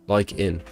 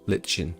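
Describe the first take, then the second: First: The first syllable is said like 'like'. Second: The first syllable is said with a 'ch' sound. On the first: The speaker calls it right. "I could have said it like that" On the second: The speaker calls it wrong. "So it's not Litchin"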